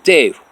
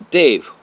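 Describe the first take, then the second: First: Loud, sharp call of his name. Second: Loud, high-pitched call of the name; sharp call. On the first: Kathy confronting him, calling his name. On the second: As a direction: call him out loud and cutting. Kathy confronting him again. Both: Retold or imitated.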